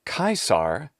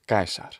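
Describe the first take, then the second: First: It starts with an aspirated k, English-style. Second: It starts with an unaspirated k, Latin-style. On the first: The speaker calls it wrong. "That's why to say Caesar is actually not at all close enough to the classical Latin pronunciation" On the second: The speaker calls it right. "The Latin name in classical Latin pronunciation is Caesar"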